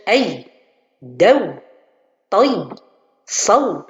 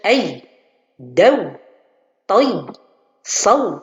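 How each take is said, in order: First: The glide sounds are pressed as if doubled. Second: The same.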